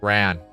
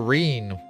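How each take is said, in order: First: The vowel is short, as in 'fan'. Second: The vowel is long, as in 'see'. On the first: The speaker calls it right. "Like fan, but with R" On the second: The speaker calls it wrong. "I don't think that's the right way to say it"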